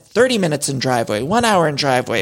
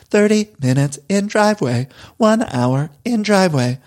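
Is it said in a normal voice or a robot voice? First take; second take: normal; robot. First: It is said in her normal speaking voice. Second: It is said in an imitated robot voice.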